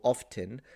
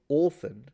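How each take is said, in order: First: The first vowel is short, as in 'off'. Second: The first vowel is long, like in 'or'. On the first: "she wouldn't even say often" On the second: "she would say orphan"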